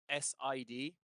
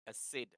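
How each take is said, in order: First: It is spelled out as three separate letters. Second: It is pronounced as a single word, sid. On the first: The speaker calls it wrong. "we don't say S I D" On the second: The speaker calls it right. "we call it a S I D"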